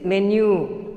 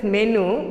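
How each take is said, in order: First: "menu" with a y glide, MEN-yoo; "menu" as men-you; correct pronunciation. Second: "menu" ending in a bare oo, MEN-oo; "menu" as men-noo; common mispronunciation. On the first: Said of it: "It is menu". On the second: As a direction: say "menu" without the y sound. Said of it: "but it is not menu". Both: Shown as a demonstration.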